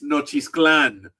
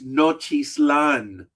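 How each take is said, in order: First: It is said with a k sound before lan. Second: It is said without a k sound. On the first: This is how Spanish speakers actually say the name. "but in Spanish, it's Nochisclan. Like, where the hell is the K?" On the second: This is how the name looks when read from its spelling. "If you look at it"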